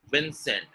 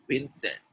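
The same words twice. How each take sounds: First: "Vincent" with a lip-bitten v; correct V sound. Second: "Vincent" said as "Bincent"; both lips closed to start "Vincent"; b replacing v in "Vincent"; wrong B sound. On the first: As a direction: clear v in "Vincent". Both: Shown as a demonstration. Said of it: "it is not Vincent".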